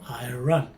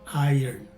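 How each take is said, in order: First: The word is said as spelled, like 'I run'. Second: The word is not said as spelled. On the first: The speaker calls it wrong. "Some people pronounce this as spelled, as in I run" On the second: The speaker calls it right. "you will definitely sound more educated when you pronounce this word as iron"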